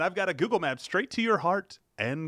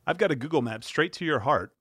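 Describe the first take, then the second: First: It is said with lively enthusiasm. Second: It is said flatly, without enthusiasm.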